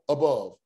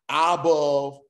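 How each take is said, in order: First: The first vowel is a short hurried uh. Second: The first vowel is a long drawn-out ah. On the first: The speaker calls it right. "We're getting right to the point" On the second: The speaker calls it wrong. "we don't say above"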